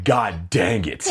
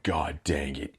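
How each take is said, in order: First: Slow, stretched-out mock dismay; drawn-out exasperation. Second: Low, softer grumble of defeat; muttered dismay. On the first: Kid behind the farting mom, drawn-out exasperation. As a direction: drag the words out, exasperated. Exasperated reaction to fart in class. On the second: Retold or imitated. Kid handed push-ups after class, muttered dismay. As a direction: grumble it low under your breath.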